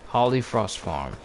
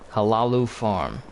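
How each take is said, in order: First: The name is said as two words, Holly Frost. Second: The name is said as three syllables, Halalu. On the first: The speaker calls it right. "Holly Frost, not Halalu" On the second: The speaker calls it wrong. "How do you say that? Halalu?"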